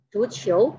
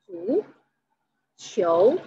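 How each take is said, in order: First: Said in the usual way. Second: "Zuqiu" slowly, a long pause between "Zu" and "qiu"; syllable by syllable. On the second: Shown as a demonstration. Teacher breaking down "Zuqiu" for learners, syllable by syllable. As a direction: split "Zuqiu" into two separate, drawn-out syllables.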